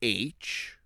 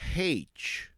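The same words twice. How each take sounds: First: The letter name starts without an h sound. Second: The letter name starts with an h sound. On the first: "Some relatives pronounce it as H" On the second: "So they actually put the the H in there"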